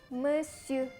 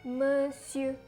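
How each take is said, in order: Both takes have the same delivery.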